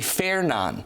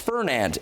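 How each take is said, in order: First: The final D sound is silent. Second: The final D sound is pronounced. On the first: The speaker calls it right. "The D is not pronounced in this" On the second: The speaker calls it wrong. "You might say, oh, it's Fernand"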